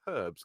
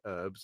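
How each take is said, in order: First: It has a British accent, audible h. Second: It has an American accent, silent h.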